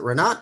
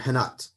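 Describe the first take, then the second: First: The name begins with an R sound. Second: The name begins with an H sound. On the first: The speaker calls it right. "Is it Renat or Henat?" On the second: The speaker calls it wrong. "in Brazil ours are pronounced like H's"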